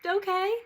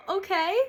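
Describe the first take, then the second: First: High, loud echoing okay; relieved okay. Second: High, loud bright okay; calm family okay. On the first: Her own relieved reply to the family, high and loud. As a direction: echo them back in relief. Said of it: "I was like". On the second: Family accepting her news with a high, loud okay. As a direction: mimic everyone's easy acceptance. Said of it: "everyone was like". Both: Retold or imitated.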